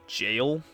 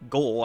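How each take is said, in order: First: It begins with a J sound. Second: It begins with a hard G sound. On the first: The speaker calls it right. "it's just jail" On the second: The speaker calls it wrong. "I've been pronouncing that wrong"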